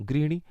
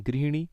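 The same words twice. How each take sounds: No difference in how they are said.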